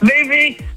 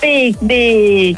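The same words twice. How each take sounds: First: It is said in an angry way. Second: It is said in a sad way.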